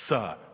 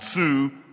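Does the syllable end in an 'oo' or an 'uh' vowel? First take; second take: uh; oo. First: The syllable ends in a short 'uh' vowel. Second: The syllable ends in a long 'oo' vowel. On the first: The speaker calls it right. "That's how you say it" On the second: The speaker calls it wrong. "not Sue"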